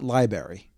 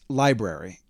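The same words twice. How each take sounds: First: The first r sound is dropped. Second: The first r sound is kept. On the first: The speaker calls it wrong. "the word's not library" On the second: The speaker calls it right. "it's library"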